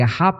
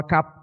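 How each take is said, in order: First: The middle consonant is a breathy h sound. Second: The middle consonant is a hard k sound. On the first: The speaker calls it right. "como realmente se debería pronunciar, más desgarbado" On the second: The speaker calls it wrong. "no Acab, como aparece en la Reina Valera del sesenta"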